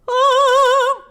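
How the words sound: The vowel has a bright, forward resonance. "more brightness"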